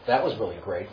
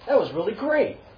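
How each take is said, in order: First: It sounds sarcastic and provoking. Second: It sounds warm and sincerely encouraging. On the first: The listener is mocked and provoked. "or start a fight with those words" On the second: The listener is genuinely praised. "you can either encourage someone"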